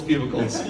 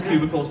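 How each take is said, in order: First: "cubicles" with a P at the start; "cubicles" turned into "pyoobicles"; mispronounced cubicles. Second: Said in the usual way. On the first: Shown as a demonstration. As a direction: say "cubicles" as "pubicles". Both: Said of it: "where she pronounces cubicles".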